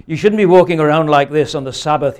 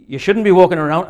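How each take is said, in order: First: Loud telling-off, accent attempt dropped; scolding kirk elder. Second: Loud, higher, half-managed Scottish scolding; attempted Scottish accent. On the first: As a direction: scold loudly as a church elder, in your own accent. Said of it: "accosted by an elder of the kirk". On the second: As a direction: have a poor go at a Scottish accent. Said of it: "I can't do a Scottish accent".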